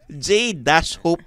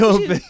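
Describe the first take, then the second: First: The J is spelled out as a separate letter. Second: The J blends into the word as one syllable. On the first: The speaker calls it right. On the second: The speaker calls it wrong. "Eh, walang dash. Sabi, [name]"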